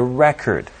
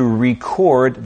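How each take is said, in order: First: "record" stressed on the first syllable, REC-ord; noun stress. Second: "record" stressed on the second syllable, re-CORD; verb stress. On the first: Teacher models a sentence for learners, "record" with first-syllable stress. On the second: Teacher models a sentence for learners, "record" with second-syllable stress. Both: Shown as a demonstration. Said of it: "Using both noun and the verb in a sentence".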